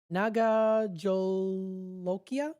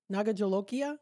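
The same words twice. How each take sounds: First: Very slow, drawn-out "Naga Jolokia", questioning; sounding it out. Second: Said in the usual way. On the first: Real, not acted. Host reading an unfamiliar pepper name on air, sounding it out. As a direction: sound out "Naga Jolokia" haltingly, rising at the end. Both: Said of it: "I'm trying to pronounce it".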